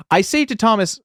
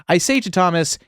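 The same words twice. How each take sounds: First: A hint of a thick Italian accent, started then dropped. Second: Said in the usual way. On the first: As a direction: begin the Italian producer voice, higher. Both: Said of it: "I'm not doing an offensive accent".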